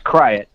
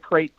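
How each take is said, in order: First: It is said as two syllables, like cry-at. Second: It is said as one syllable, like crate. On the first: This is the pronunciation the speaker grew up with. "It will always be Kryat" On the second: This is the pronunciation others use. "it's not a crate to me"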